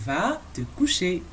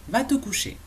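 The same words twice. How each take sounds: First: "Va te coucher" spoken slowly, words drawn out; slow dictation of "Va te coucher"; slow model. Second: Said in the usual way. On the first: Shown as a demonstration. Teacher models the bedtime command for learners, slowly.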